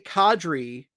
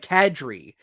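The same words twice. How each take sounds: First: The name is said in a non-Canadian way. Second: The name is said in the Canadian way. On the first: "I say Kadri" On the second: "everybody else says like Kadri, ... that's big Canadian"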